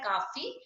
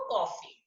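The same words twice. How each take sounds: First: काफी said "kaafi" with a long a; without the chandra. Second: कॉफी said with a round open o, "kɔfi"; with the chandra o sound. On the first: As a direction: read काफी with a plain long aa, not o. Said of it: "बिना चंद्र की सहायता से पढ़ा जाता है". (काफी को लंबी आ से पढ़ें) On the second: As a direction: say कॉफी with the open o of English coffee. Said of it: "जब ओ का प्रयोग कर दिया जाता है". (कॉफी को गोल ऑ की ध्वनि से बोलें) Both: Shown as a demonstration.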